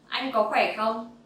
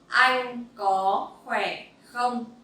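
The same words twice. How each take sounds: First: It is said at a faster speed. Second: It is said at a normal practice speed.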